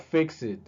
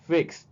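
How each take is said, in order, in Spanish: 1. Se dice como una sílaba extra. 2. Se dice como un sonido t simple. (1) "No sería" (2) "la ed también se va a pronunciar como T"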